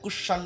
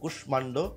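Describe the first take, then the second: First: The m sound in the middle is dropped. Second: The m sound in the middle is pronounced. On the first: The speaker calls it wrong. "কুষাণ্ড না" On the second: The speaker calls it right. "কিন্তু কুষ্মাণ্ড"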